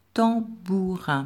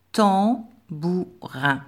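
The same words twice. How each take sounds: First: Said in the usual way. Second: Tambourin very slow, every syllable drawn out; slow dictation. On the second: Shown as a demonstration. Teacher dictating tambourin to pupils, very slow. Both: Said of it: "un mot de trois syllabes".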